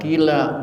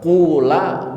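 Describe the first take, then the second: First: The first vowel is a plain i. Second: The first vowel is a plain u. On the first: "Mau dibaca kila boleh" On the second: "mau dibaca kula boleh"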